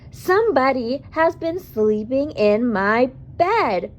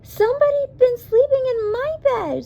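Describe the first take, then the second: First: It is a loud, growly Papa Bear voice. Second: It is a squeaky Baby Bear voice.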